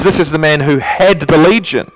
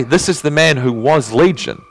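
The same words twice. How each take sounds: First: "had" punched high and loud; stress on HAD. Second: "was Legion" set out as the wrong version; stress on the rejected wording. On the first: Preacher showing what Mark really says, emphatic stress on "had". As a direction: hit "had" hard to mark the separation. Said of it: "There's a separation". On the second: Preacher contrasting what Mark doesn't say, stress on "was". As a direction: lean on "was" as the word Mark avoided. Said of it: "Mark doesn't say". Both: Shown as a demonstration.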